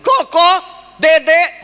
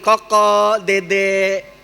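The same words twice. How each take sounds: First: The names are called very loudly and sharply. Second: The names are called softly and gently. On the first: An angry third call. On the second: A gentle first call that gets ignored.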